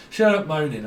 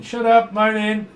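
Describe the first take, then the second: First: Said in the usual way. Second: High, loud, slow scolding; loud scolding put-on voice; telling off. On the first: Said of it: "I keep hearing". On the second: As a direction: snap at the moaner like a fed-up parent. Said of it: "I can hear someone moaning".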